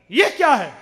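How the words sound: It sounds angry and rejecting.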